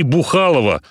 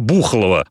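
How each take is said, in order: First: The stress falls on a later syllable. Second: The stress falls on the first syllable. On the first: The name sounds like it is about drinking. The speaker calls it wrong. "не Бухалово" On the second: The name comes from a word for a loud sound. The speaker calls it right. "а Бухалово, от слова «бух»"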